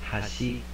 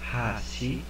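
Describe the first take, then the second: First: The first syllable is not said with more force. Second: The first syllable is said with more force. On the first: It is one of the other two words. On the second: It means chopsticks.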